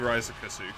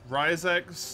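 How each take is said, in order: First: The name ends with separate 'ku-su' syllables. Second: The name ends with a short 'x' sound. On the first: The speaker calls it wrong. "which sounds terrible" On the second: The speaker calls it right. "those are both fine"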